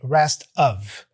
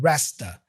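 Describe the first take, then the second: First: The word of is pronounced fully and clearly. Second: The word of is reduced to a schwa. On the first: "he doesn't really say rest of" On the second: "The of gets reduced to a uh sound, a schwa sound"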